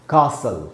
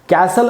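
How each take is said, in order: First: The first vowel is long, as in 'car'. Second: The first vowel is short, as in 'cat'. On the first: "British उच्चारण जो है वो है कासल" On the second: "कैसल American उच्चारण है"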